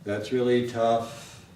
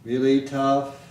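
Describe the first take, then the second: First: THAT'S REALLY TOUGH slow and level, pitched down; lower flat melody. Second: REALLY TOUGH loud and level; flat intonation. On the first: Teacher shows a lower melody, flat intonation in lower voice. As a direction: keep THAT'S REALLY TOUGH low-key and even. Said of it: "maybe a lower voice, lower melody". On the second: Teacher demonstrates the flat melody to learners, flat intonation. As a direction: hold REALLY TOUGH firmly on one pitch. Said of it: "Down here". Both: Shown as a demonstration.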